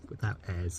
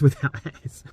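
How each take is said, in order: First: The last word starts with no h sound. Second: The last word starts with an h sound. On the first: The speaker calls it right. "It is a H, but it's pronounced without it" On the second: The speaker calls it wrong. "I said hairs without hairs"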